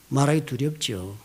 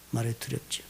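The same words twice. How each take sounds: First: Slow emphatic take. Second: Soft echo. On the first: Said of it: "repeated phrase, slower first take". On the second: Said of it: "repeated phrase, softer echo". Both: Shown as a demonstration.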